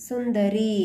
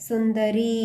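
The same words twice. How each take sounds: No difference in how they are said.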